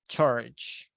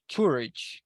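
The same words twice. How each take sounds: First: The vowel sounds like a relaxed 'uh'. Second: The vowel sounds like a rounded 'ooh'. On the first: The speaker calls it right. "we say uh" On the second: The speaker calls it wrong. "We don't say ooh"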